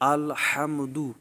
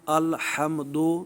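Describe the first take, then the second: First: The last vowel is a pure 'oo' sound. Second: The last vowel is an 'oh' sound. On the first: It follows the Arabic way of reading. The speaker calls it right. "ये दू पढ़ना ये मारूफ़ तरीक़ा है" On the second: It follows the non-Arabic way of reading. The speaker calls it wrong. "दो पढ़ना ये मजहूल तरीक़ा है"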